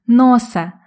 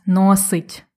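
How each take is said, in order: First: «носе» ending in an open e, no т; dialect verb form. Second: Said in the usual way. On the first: Shown as a demonstration. Teacher repeats the dialect form, open e. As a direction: say «носе», not «носить». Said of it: "Ні, кажуть «носе»". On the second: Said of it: "замість «носить»".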